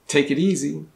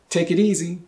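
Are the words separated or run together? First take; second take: run together; run together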